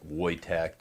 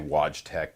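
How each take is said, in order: First: The name is said with a Polish pronunciation. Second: The name is said with an English pronunciation. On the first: The speaker calls it right. "it's like Polish" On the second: The speaker calls it wrong. "I always say Wojtek, but everybody gets mad"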